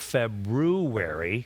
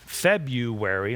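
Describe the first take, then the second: First: The r after 'Feb' is pronounced. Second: The r after 'Feb' is dropped. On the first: The speaker calls it right. "instead of February" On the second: The speaker calls it wrong. "I said February"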